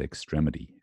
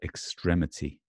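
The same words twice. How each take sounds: First: The t is softened toward a d, American style. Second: The t is crisp and unsoftened, British style. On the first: "Americans say extremity" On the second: "British people would say extremity"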